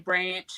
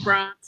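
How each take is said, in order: First: It is said in a Victorian accent. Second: It is said in a South Australian accent. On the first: "Whereas Victoria, where I live now, they say" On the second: "South Australians sound like Poms to other Australians. We say"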